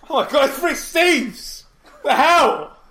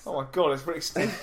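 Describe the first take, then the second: First: A laughing, high, loud "Oh my God, it's Rick Steves!"; excited shout. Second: Said in the usual way. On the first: Acted. Co-host playing along, starstruck at meeting Rick Steves, in a laughing shout. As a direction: shriek it out with mock starstruck glee, stretched slowly.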